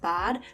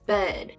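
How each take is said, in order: First: The vowel is an open 'ah' sound. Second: The vowel is a forward 'eh' sound. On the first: "how you would just say the word like I would say it bad" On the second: "they're like bed. ... the eh instead of the ah"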